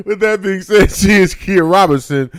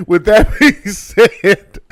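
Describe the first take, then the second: First: High, shouted host call; shouted announce. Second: Slow, stretched host wind-up; drawn-out slow announce. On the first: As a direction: belt it out to the audience. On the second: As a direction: drag each word out like a showman. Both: Shown as a demonstration.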